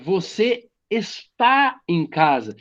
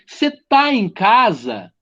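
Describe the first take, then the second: First: The verb's first syllable is fully pronounced. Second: The verb's first syllable is dropped. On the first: This is the full formal form. "é você está em casa" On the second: This is how it is said in everyday speech. "muitas vezes eu tô falando assim"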